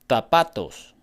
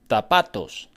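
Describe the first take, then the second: The two takes are said the same way.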